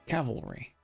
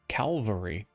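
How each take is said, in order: First: The L sound comes after the V sound. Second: The L sound comes before the V sound. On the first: The speaker calls it right. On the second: The speaker calls it wrong.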